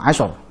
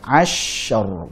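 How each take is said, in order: First: The sh sound is cut short abruptly. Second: The sh sound is held far too long. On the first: "jangan langsung asyar"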